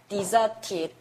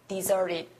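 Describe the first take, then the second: First: No r sound, a long vowel, and a crisp t. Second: The r is sounded and the t is dropped. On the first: "영국에서는 R 발음을 하지 않아요... 파열이 돼요" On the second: "미국식으로 발음하면 deserted"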